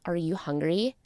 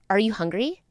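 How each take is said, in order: First: The question sounds warm and caring. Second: The question sounds charged and irritated. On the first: The asker kindly wants to feed the listener. "I'm making you dinner and I ask" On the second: The asker is annoyed with the listener. "Different energy, different vibe"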